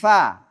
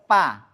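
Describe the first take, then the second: First: It starts with breathy f, air flowing out. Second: It starts with a closed-lip p sound. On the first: The speaker calls it right. "nafasnya mengalir keluar" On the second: The speaker calls it wrong. "Jadi nggak boleh pa"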